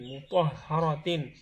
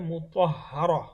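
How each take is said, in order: First: The word ends with a -tin sound. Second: The word ends on a bare vowel. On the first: The reading continues into the next word. "যদি পরবর্তী শব্দের সাথে আমরা একসাথে পড়ি" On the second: The reading stops on this word. "আর থামলে হবে"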